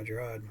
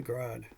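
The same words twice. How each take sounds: First: "Gerard" offered as the other pronunciation; "Gerard" as a casual second guess at the name; alternative pronunciation. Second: "Gerard" said with a hard G, like "grad"; "Gerard" with hard G, first syllable squeezed; first pronunciation. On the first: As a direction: say "Gerard" the alternative way, in two syllables. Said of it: "however you pronounce it". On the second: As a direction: say "Gerard" run together as "grahd", hard G. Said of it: "or Gerard, however you pronounce it". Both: Shown as a demonstration.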